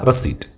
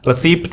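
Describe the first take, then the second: First: No p sound is heard before the final t. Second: A p sound is heard before the final t. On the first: The speaker calls it right. "ആ പി ഉച്ചരിക്കരുത്" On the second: The speaker calls it wrong. "റെസിപ്റ്റ് അല്ല"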